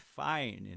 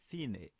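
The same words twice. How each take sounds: First: It is pronounced like the English word. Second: It is pronounced the Italian way, two syllables. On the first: The speaker calls it wrong. "não é fine" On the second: The speaker calls it right. "precisamos falar ela em italiano"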